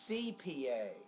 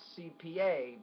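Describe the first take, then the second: First: The stress falls evenly across the letters. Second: The stress falls unevenly across the letters. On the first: The speaker calls it right. "you want to put equal stress on all of them" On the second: The speaker calls it wrong. "it's not C P A"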